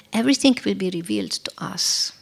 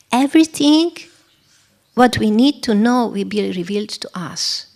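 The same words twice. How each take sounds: First: Said in the usual way. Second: "Everything" leaps up and rings out; stress on Everything. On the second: Shown as a demonstration. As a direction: hit the word "Everything" hard.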